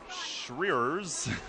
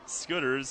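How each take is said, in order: First: The name is said as it is spelled. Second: The name is said as 'Scooters'. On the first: The speaker calls it wrong. "It looks like Schreers" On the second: The speaker calls it right. "but he says it's Scooters"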